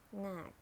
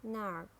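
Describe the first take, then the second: First: "knack" as British narc, silent R; British "knack", long ah, said nahk; British accent. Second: "narc" with a sounded American R; American "narc", curl the R before k; American accent. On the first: Teacher models narc for learners, British accent. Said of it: "in British English". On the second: Teacher models narc for learners, American accent. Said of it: "R in American English". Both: Shown as a demonstration.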